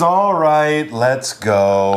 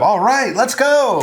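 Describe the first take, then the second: First: It sounds reluctant, like giving up. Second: It sounds willing and keen to go.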